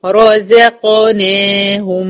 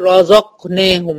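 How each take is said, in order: First: "رزقناهم" chanted slowly as "ro-ze-qo-nehum"; heavy, light, heavy. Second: "رزقناهم" as "ro-zoq-nehum", zay darkened and qaf clipped; wrong reading. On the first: Teacher models correct reading, "رزقناهم" slow, alternating heavy and light. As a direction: give every letter its vowel in "رزقناهم". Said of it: "يبقى أقول إيه؟". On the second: Teacher shows the mistake, "رزقناهم" as "razoq-nahum". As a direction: darken the zay and drop qaf's vowel in "رزقناهم". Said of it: "مش هقول". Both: Shown as a demonstration.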